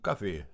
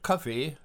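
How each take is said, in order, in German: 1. Es beginnt mit einem weichen, G-ähnlichen Laut. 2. Es beginnt mit einem harten, behauchten K-Laut. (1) "weil wir statt Kaffee, Kaffee sagen" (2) "statt Kaffee"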